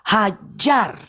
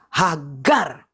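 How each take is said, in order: First: The middle consonant is a j sound. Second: The middle consonant is a hard g sound. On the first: It matches the Arabic way of saying the name. The speaker calls it right. "Ya saya luruskan" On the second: It avoids the Arabic way of saying the name. The speaker calls it wrong. "nggak mau mereka bilang J"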